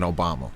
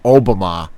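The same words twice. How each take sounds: First: It sounds like the familiar English name. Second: It sounds different from the familiar English name. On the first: It is the name of a president. The speaker calls it wrong. "not like President Obama" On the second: It is the name of a place. The speaker calls it right. "would probably be pronounced like uh, Obama or something like that"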